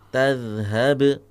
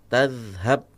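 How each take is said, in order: First: The final b is released with an echoing bounce. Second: The final b is closed without an echoing bounce. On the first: The speaker calls it right. "pada huruf ba silakan dikolkolahkan" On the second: The speaker calls it wrong.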